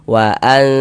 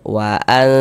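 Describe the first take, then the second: The two takes are said the same way.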